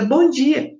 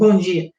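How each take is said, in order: First: It is said in an open, warm way. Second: It is said in a dry, curt way.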